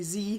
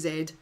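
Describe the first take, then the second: First: The letter name is said the non-Scottish way. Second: The letter name is said the Scottish way. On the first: "In Scotland, we don't say Z" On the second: "we say Z"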